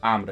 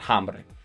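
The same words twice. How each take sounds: First: The word begins with no h sound. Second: The word begins with an audible h sound. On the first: The speaker calls it right. "the H here is silent, so it's hambre" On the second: The speaker calls it wrong. "it's not hambre"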